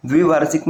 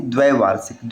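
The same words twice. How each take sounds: First: द्विवार्षिक with short "dvi" opening; wrong form. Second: द्वैवार्षिक with "dvai" opening; correct form. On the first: Teacher citing the rejected form, "dvi" in द्विवार्षिक. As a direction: say द्विवार्षिक starting "dvi", not "dvai". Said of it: "लिखना शुद्ध होगा". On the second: Teacher giving the correct form, "dvai" in द्वैवार्षिक. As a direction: say द्वैवार्षिक starting "dvai", not "dvi". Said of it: "द्वैवार्षिक लिखना शुद्ध होगा". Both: Shown as a demonstration.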